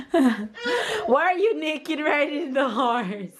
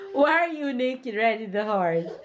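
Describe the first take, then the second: First: Laughing through the question; giggling while asking, slowed down. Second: Said in the usual way. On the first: Real, not acted. Mother laughing at naked toddler.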